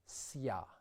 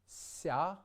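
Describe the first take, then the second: First: A hard s is followed by a y glide. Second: The s itself is softened, with no glide. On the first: The speaker calls it wrong. "and not sya" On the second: The speaker calls it right. "We get sya"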